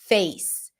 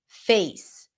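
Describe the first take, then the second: The two takes are said the same way.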